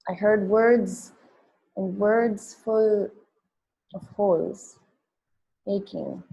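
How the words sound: There is a pause right before 'aching'. "read it with the line breaks"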